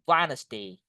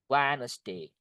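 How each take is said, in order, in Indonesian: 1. Bunyi d di tengah diam. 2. Bunyi d di tengah diam.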